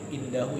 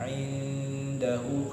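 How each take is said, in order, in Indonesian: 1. Huruf n diucapkan biasa tanpa dengung yang ditahan. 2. Huruf n ditahan dengan dengung sengau yang panjang. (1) "kalau baca pakai Latin" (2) "dibaca dengan tata cara membaca Al-Quran"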